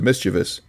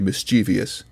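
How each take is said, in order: First: The word is pronounced exactly as it is spelled. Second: The word is not pronounced as it is spelled. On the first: The speaker calls it right. "which is how the word is spelled and supposed to be pronounced" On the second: The speaker calls it wrong. "the kind of guy who would say mischievous"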